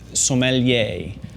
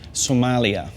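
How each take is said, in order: First: It sounds like som-uh-lee-ay. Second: It sounds like the country name Somalia. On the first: The speaker calls it right. "The way to say it is" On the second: The speaker calls it wrong. "what not to say"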